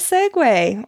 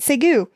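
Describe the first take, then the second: First: The word ends with a 'way' sound. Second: The word ends with a 'yoo' sound.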